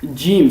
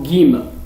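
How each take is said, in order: First: It begins with a j sound as in joke. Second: It begins with a hard g sound. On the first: This is the standard literary pronunciation. The speaker calls it right. "il faut le prononcer comme jim" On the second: This is a dialect pronunciation. The speaker calls it wrong. "les Égyptiens, en dialecte, ils le prononcent comme gim"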